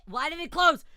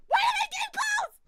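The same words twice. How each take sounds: First: Loud, raised-pitch disbelief; startled, loud protest; shocked shout. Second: Very high, loud screamed question; screaming in horrified disbelief; anguished shriek. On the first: Game suddenly closed on streamer. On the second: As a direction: shriek it at the top of your range. Game closed, streamer escalates. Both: Real, not acted.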